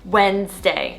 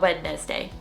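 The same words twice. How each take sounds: First: The word is said with two syllables. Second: The word is said with three syllables. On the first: The speaker calls it right. "two syllable" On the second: The speaker calls it wrong.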